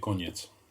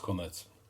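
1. Dźwięk n jest zmiękczony przed samogłoską. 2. Dźwięk n jest twardy, bez zmiękczenia.

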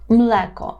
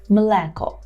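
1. Звук l перед голосним твердий. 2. Звук l перед голосним твердий.

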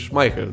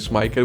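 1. Środkowa spółgłoska to przydechowe h. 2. Środkowa spółgłoska to twarde k. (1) "tylko H" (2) "się nie mówi K"

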